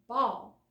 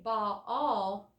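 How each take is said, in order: First: The word is said as one syllable. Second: The word is stretched into two syllables. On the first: The speaker calls it right. "we just say ball" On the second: The speaker calls it wrong. "we don't say ball all"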